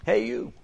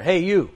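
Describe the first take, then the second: First: Much higher, softer repeated call; frog calling. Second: Frog calling. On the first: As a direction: pipe up to get his attention. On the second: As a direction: call up from below the boat. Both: Acted. Frog calls to the fisherman.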